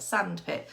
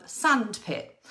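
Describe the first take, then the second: First: Said in the usual way. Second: "sandpit" said slowly and clearly; slow example word. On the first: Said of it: "they make a new word". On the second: Shown as a demonstration. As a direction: stretch out "sandpit". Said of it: "Can they do things like".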